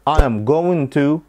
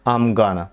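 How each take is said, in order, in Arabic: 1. كل كلمة تُقال كاملة ومنفصلة. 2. الكلمات تُضغط في صورة مختصرة.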